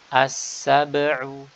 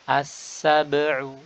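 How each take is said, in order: Both takes have the same delivery.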